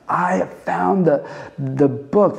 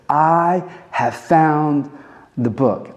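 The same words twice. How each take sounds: First: Higher-pitched, drawn-out exclamation; excited discovery. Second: Slow, drawn-out announcement, raised in pitch; awed excitement. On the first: Preacher pictures the high priest's find, with excitement. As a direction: let the thrill lift the opening words. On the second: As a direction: stretch out the discovery. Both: Acted. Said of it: "picture him saying this with excitement".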